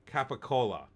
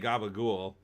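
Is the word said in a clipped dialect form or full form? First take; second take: full form; clipped dialect. First: It is said in full with all four syllables. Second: It is clipped, with voiced consonants and no final vowel. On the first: "but uh, capicola" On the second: "I'm gonna say gabagool"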